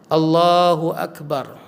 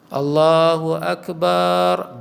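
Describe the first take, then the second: First: The final syllable bar is short. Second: The final syllable bar is drawn out long. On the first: The speaker calls it right. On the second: The speaker calls it wrong.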